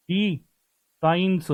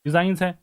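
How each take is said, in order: First: डिजाइंस stretched very slowly, each sound held; drawn-out word. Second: Said in the usual way. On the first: Shown as a demonstration. Teacher stretching डिजाइंस slowly for students. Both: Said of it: "डिजाइंस है ना दोस्तों".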